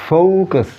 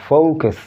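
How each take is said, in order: No difference in how they are said.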